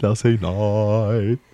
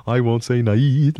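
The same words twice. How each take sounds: First: Slow sung line holding "night" on ah; sung, stretch "night" into a long open "naaah"; mock proper singing. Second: Slow sung line stretching "night"; sung, drawn-out lounge singer parody; mock crooning. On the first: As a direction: overblown correct-diction croon. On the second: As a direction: croon "night" long with an ee glide. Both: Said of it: "sing like this".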